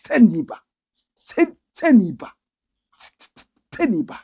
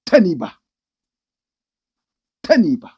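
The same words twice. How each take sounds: First: Teniba with an exaggerated triple T. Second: Teniba with a hard, punched T; stress on the T. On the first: Mocking the accent, Teniba with a triple T. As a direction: spit out the T of Teniba hard. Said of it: "you might think it's a triple T". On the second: Mocking Southern accent on Teniba, punched T. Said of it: "the emphasis on the T". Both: Shown as a demonstration.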